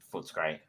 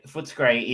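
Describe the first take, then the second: First: Said in the usual way. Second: Three beats in Footscray: foot, a, scray; Foot-a-scray pronunciation. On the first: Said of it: "not Footscray". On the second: Shown as a demonstration. Host explaining the commercial's local name, Footscray said as Foot-a-scray. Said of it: "properly pronounced Footscray".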